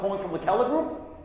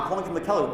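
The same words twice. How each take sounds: First: The voice rises at the end like a question. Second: The voice stays level or falls at the end. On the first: The speaker calls it right. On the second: The speaker calls it wrong.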